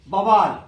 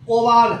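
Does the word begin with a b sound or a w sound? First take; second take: b; w. First: The word begins with a b sound. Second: The word begins with a w sound. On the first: The speaker calls it wrong. "गलत है" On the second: The speaker calls it right. "पहले वह होगा तब ब होगा"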